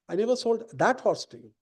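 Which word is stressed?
that. The word 'that' carries the main stress. A different horse was sold.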